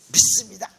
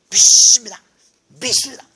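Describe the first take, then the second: First: Loud mock profession of faith; insistent declaration. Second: Mock shouting to force belief; forced belief. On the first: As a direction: declare it firmly, imitating a believer. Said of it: "믿음을 착각하면 내가 원하는 것을". (힘주어 외치는 믿음 선언 흉내) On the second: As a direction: shout it much louder, as if convincing yourself. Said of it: "안 믿어지니까 또". (억지로 믿으려는 듯 크게 외치는 흉내)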